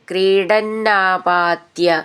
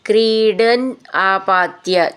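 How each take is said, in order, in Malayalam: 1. രണ്ട് വാക്കുകളും ചേർന്ന് ഒരു വാക്കായിട്ടാണ് ചൊല്ലുന്നത്. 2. രണ്ട് വാക്കുകളും വെവ്വേറെ വാക്കുകളായിട്ടാണ് ചൊല്ലുന്നത്.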